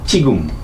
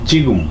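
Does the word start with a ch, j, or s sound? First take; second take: ch; j. First: The word starts with a ch-like sound. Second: The word starts with a plain j sound. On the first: The speaker calls it right. "এইটাকে বলবে চিগুম, চ দিয়ে বলবে" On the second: The speaker calls it wrong. "বেসিকের নিয়ম অনুসারে পড়ি তাহলে কি জিগুম জিগুম, কিন্তু এটা জিগুম না"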